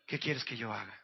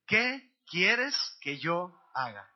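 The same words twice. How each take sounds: First: Low, soft restatement of the question; quiet reflection. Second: Very slow, word-by-word recitation; aloud, together. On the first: Preacher repeats the million-dollar question, quietly reflective. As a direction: let the question sink in softly. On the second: Preacher has congregation repeat the question, slow and aloud. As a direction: lead them through it, spacing each word. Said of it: "Dilo conmigo en voz alta". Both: Shown as a demonstration.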